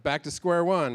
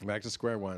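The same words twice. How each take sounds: First: Said in the usual way. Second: Softer, lower, resigned echo; deflated repeat. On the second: Real, not acted. Comic resigned to his failing anger management, deflated and softer. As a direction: let it sink, mutter it to yourself.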